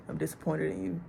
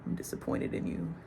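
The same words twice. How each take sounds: First: Said in the usual way. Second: Soft, breathy whisper of a let-down father; quiet disappointed father; quiet disappointment. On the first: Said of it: "But no, like". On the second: Retold or imitated. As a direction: hush it, calm and heavy. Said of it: "he not angry, he not mad".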